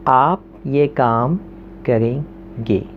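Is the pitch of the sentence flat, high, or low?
low. The sentence is said with a lowered pitch. It is an order that leaves no choice. "जब मैंने tone नीचे की"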